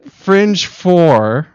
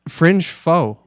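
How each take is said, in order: First: The last word is said carefully, with a clear r. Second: The last word is said loosely, without a final r. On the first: "for those more professional types" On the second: "I'm all about the foe"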